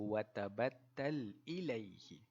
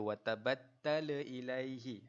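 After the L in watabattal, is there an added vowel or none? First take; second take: none; added vowel. First: The L sound ends cleanly without extra vowel. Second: An extra bouncing vowel follows the L sound. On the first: The speaker calls it right. "bacaan yang betul" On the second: The speaker calls it wrong. "Kita tak boleh baca dia"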